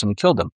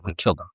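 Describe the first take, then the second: First: Said in the usual way. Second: Low, soft, heavy echo of the line; hushed repeat. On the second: Shown as a demonstration. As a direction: let it drop quietly, stunned. Repeated for weight.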